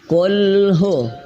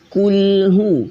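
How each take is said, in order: First: The u vowel is said with weakly rounded lips. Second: The u vowel is said with fully rounded lips. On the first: The speaker calls it wrong. "Ketika kurang manyun maka suaranya berubah" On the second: The speaker calls it right. "Ini manyun"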